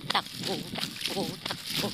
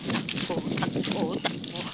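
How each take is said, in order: First: Breathless running chant; panting between words; while running. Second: Breathless, half-whispered chant; panting out each takbo; while running. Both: Real, not acted. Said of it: "Takbo na naman".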